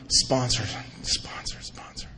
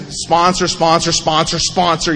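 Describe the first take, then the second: First: Hushed, fading whisper; whispered realization. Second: Said in the usual way. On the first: Retold or imitated. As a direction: whisper it to yourself as the idea dawns. Dawning scheme about sponsor.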